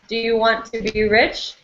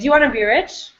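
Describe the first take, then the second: First: Each word is said fully and separately. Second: The words run together quickly and are reduced.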